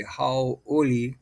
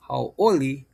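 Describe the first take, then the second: First: "hauoli" sounded out as hau, then oli; pronunciation demonstration. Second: Said in the usual way. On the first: Shown as a demonstration. Teacher giving an example word, carefully broken up. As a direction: separate "hauoli" into careful parts. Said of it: "which would be". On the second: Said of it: "And then we have".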